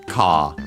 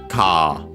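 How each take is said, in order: Both takes have the same delivery.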